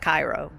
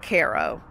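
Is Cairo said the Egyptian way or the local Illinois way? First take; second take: Egyptian; local Illinois. First: It is said the usual Egyptian way. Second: It is said the local Illinois way. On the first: It names the city in Egypt. "of course, Egypt, it's Cairo" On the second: It names the Illinois city. "Down here we pronounce it Cairo"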